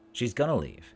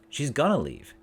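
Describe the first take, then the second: First: 'Going to' is reduced and linked as 'gonna'. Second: The same.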